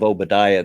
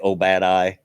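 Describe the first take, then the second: First: The name is pronounced in the usual way. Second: The middle of the name sounds like 'bad eye'. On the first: The speaker calls it right. "instead of Obadiah" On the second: The speaker calls it wrong. "they would say Obadiah"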